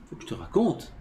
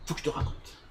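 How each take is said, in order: First: Voiced, with "raconte" rising at the end; questioning stress on raconte. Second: Soft, voiceless confiding quote; hushed retold urge. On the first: Teacher questioning why he must tell, rising on "raconte". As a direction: lift "raconte" as if querying it. Repeats the quote to question motive. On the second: Friend eager to tell his story, hushed imitation. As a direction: say it under your breath.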